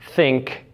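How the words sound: The word begins with a th sound. "with the th sound"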